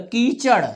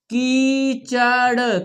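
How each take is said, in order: First: Said in the usual way. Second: कीचड़ très lent, syllabes étirées; épelle कीचड़ syllabe après syllabe; lecture syllabée. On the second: Shown as a demonstration. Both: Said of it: "हमारे साथ पढ़ना है आपको".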